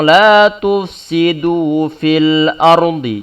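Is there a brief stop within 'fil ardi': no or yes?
no. Fil ardi flows on with no stop. The speaker calls it right. "Jadi langsung"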